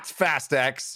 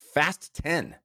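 First: The last word is said as the letter ex. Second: The last word is said as the number ten. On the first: This is not the intended name of the film. The speaker calls it wrong. "It is not Fast X" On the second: This is the intended name of the film. The speaker calls it right. "the pronunciation of this film is intended to be Fast 10"

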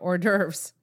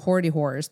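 First: It is said the French way, 'or-derves'. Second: It is said letter by letter, 'hoardy whores'. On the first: The speaker calls it right. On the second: The speaker calls it wrong.

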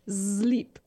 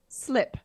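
First: The vowel is long, as in English 'sleep'. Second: The vowel is short, as in English 'slip'. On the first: "they pronounce it sleep" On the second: "But it's written slip"

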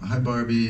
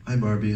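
First: The greeting is said slowly. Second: The greeting is said fast. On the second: "That's too fast"

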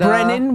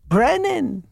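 First: The name is said in a plain, neutral way. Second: The name is said with a Jewish-sounding inflection. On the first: The name comes across as Irish. "which it's Irish"

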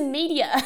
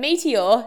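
First: The word is said in an American accent. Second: The word is said in a non-American accent. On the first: "he says some things with an American accent" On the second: "we're like, a meteor"

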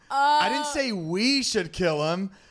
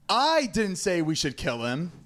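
First: The stress is on the word 'we'. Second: The stress is on the word 'I'.

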